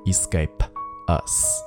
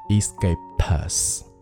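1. "escape"和"us"之间隔着一口气。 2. "p"音直接接到"us"上，中间没有停顿。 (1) "而不需要再换气说escape us" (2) "p 和后面的这个us 连起来"

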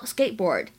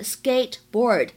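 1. t 音只保持口型，不爆破。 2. t 音清楚地爆破出来。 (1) "这个t 的发音呢只做口型，并没有把声音发出来，会变成skateboard" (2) "大家平时可能会读成是skateboard"

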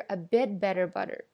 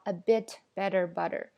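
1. 'bit'里的t被吞掉了,没有爆破。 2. 'bit'里的t完全爆破。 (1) "a bit 后面这个t 在这边有一个失去爆破的连读现象" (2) "所以我们听不到a bit better butter"

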